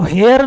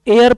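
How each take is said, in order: First: The word begins with an h sound. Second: The word begins with a vowel sound. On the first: The speaker calls it wrong. "इसको हेयर नहीं pronounce करते" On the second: The speaker calls it right. "इसको एयर pronounce करते हैं"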